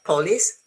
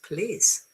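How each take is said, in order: First: The first vowel is a full, clear vowel. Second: The first vowel is a weak schwa. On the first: The speaker calls it wrong. "So it's not police" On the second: The speaker calls it right. "it's police"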